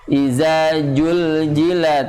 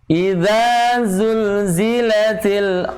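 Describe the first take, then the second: First: The z sounds are turned into a j. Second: The two sounds are kept distinct, with a dh-like sound. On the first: The speaker calls it wrong. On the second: The speaker calls it right.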